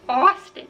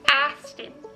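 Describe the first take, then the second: First: The first vowel is a rounded 'aw' sound. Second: The first vowel is an open 'ah' sound. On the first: The speaker calls it right. "it's Austin" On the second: The speaker calls it wrong. "You're gonna be like"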